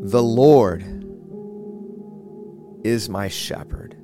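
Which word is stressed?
Lord. The stress is on the word Lord.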